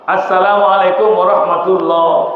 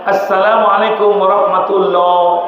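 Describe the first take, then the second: Both takes have the same delivery.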